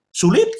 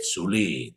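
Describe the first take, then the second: First: High asking "Sulit?"; high questioning "Sulit?"; rhetorical question. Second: "Sulit." sunk very low and soft; deep hushed "Sulit."; low answer. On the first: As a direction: fling it up to the crowd. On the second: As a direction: drop it quietly. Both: Shown as a demonstration.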